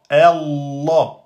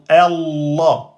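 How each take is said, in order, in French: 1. Le son l est tenu et doublé. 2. Le son l est tenu et doublé.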